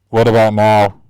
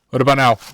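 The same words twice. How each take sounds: First: The voice sounds muffled, as if inside a cup. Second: The voice sounds clear, without a muffled cup sound. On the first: The speaker calls it wrong. "Still sounds like you're talking into a solo cup, just closer" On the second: The speaker calls it right. "Oh wow, that's impressive"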